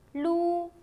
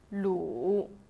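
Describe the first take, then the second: First: The pitch stays high and level. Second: The pitch dips low, then comes back up.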